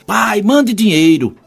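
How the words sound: It is said in a rude, demanding tone.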